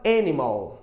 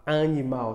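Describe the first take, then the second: First: "animal" as EN-i-mul, stress up front; English pronunciation. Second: "animal" as ah-ni-MAU, nasal first vowel; Portuguese pronunciation. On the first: Teacher showing how you say it, English pronunciation. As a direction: say "animal" in English, open first vowel. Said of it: "só que você fala animal". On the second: Teacher showing what not to say in English, Portuguese pronunciation. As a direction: say "animal" the Brazilian way, stressed at the end. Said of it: "você não fala animal". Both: Shown as a demonstration.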